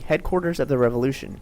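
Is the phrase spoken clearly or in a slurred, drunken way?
clearly. The phrase is spoken clearly and normally.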